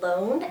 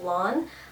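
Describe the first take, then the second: First: The vowel is long 'o' as in 'bone'. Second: The vowel is open 'aw' as in 'dawn'. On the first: The speaker calls it wrong. "everyone wants to pronounce it Lone" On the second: The speaker calls it right. "it's pronounced like lawn"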